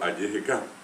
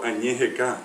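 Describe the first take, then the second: First: The prefix uses an oral 'y' sound. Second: The prefix uses a nasal 'ñ' sound. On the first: The speaker calls it right. "digo ayejeca" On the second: The speaker calls it wrong. "no puedo decir tampoco añejeca"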